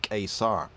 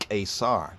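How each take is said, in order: The two takes are said the same way.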